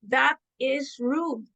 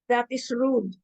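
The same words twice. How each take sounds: First: It is said with strong emotional feeling. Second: It is said plainly, without much feeling.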